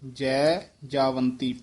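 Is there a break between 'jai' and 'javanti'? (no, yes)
yes. A short break comes after 'jai'. The speaker calls it right. "ਜੈ ਦੇ ਵਿੱਚ dash ਦੇ ਕੇ ਉਚਾਰਨ ਕਰਨਾ ਹੈ"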